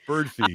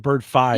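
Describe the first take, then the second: First: The name ends with a 'fee' sound. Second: The name ends with a 'fye' sound. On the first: The speaker calls it right. "they said it's Birdfee" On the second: The speaker calls it wrong. "I would say Bird Fi because of Spotify"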